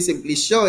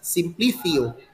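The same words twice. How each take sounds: First: The c sounds like an s. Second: The c sounds like a th. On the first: The speaker calls it wrong. "My name is not supposed to be Simplicio" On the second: The speaker calls it right. "It's Simplicio"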